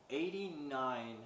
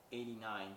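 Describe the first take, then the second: First: Eighty-nine drawn out slowly, each syllable weighted; slow stress on Eighty-nine. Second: Said in the usual way. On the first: Real, not acted. Retelling the elf's toy count, slow stress on Eighty-nine. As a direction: linger on Eighty-nine for disbelief. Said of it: "Etch-a-Sketches". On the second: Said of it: "I made".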